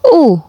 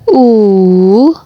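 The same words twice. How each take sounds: First: The vowel carries the fourth tone. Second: The vowel carries the third tone. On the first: "nada keempat" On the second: "nada ketiga"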